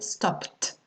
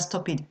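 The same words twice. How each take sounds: First: The ending is a plain T sound. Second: The ending is not a T sound. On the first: The speaker calls it right. "c'est le son T ... on dit P à la fin, donc on va prononcer stopped" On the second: The speaker calls it wrong. "et pas stopped"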